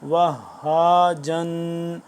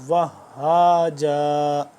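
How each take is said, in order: First: The word ends with a final '-n' sound. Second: The word ends on a long vowel. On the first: The reading continues without stopping. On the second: The reader stops on this word.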